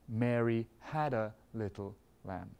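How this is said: The stress falls on the word had. "what do we do if we want to emphasize had?"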